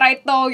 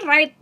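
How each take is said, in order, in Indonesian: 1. Kata itu berakhir dengan tambahan vokal o. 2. Kata itu berakhir bersih di bunyi t. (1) "dia righto gitu, kayak ada logat-logatnya gitu" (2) "Orang kan right"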